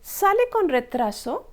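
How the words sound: It has the rising intonation of a question. The speaker is asking whether the train is late. "This was a question, right? You could make out from the intonation"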